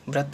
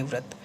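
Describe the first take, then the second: First: व्रत begun with a B, as "brat"; wrong initial B. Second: व्रत begun with a V, as "vrat"; correct initial V. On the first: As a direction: say व्रत with B in place of V. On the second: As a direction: say व्रत with V, not B. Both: Shown as a demonstration. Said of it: "व्रत नहीं, व्रत".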